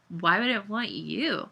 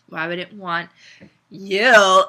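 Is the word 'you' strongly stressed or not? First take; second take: not stressed; stressed. First: The word you is not strongly stressed. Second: The word you is stressed with disgust.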